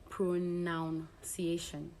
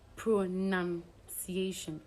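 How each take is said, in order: First: The second syllable has an 'ow' vowel. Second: The second syllable has an 'ah' vowel. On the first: The speaker calls it wrong. "not ow" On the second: The speaker calls it right. "the vowel in the second syllable is said as ah"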